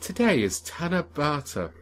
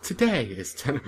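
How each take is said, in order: First: "Tanabata" said fully as ta-na-ba-ta; correct pronunciation. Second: "ten" said as a clipped stub instead of "Tanabata"; mispronounced name. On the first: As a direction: say "Tanabata" carefully, four even syllables. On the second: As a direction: say "Today is ten", cutting the name to one syllable "ten". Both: Shown as a demonstration. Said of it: "if the main character actually spoke like that".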